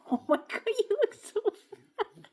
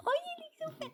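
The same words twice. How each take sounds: First: Put-on high squeaky baby talk to the pet. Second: Put-on very high cooing baby voice; baby talk. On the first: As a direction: coo at the dog like a baby. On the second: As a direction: squeal it to the pet. Repeat, even higher baby talk.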